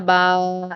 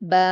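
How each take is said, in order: First: The vowel is drawn out far too long. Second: The vowel is held for only two counts. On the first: The speaker calls it wrong. "इसको बहुत ज्यादा भी नहीं खींचना, बा ऐसे नहीं करना है" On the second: The speaker calls it right. "हम इसको सिर्फ इतना ही खींचेंगे, दो हरकत के बराबर"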